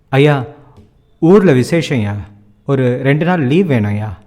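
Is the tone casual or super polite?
casual. It is said in a casual tone.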